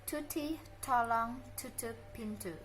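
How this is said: The p, t and k sounds have a puff of breath. "Native speaker, mereka akan mengucapkannya seperti ini ... ada aspirated sound"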